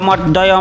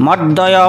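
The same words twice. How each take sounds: The two takes are said the same way.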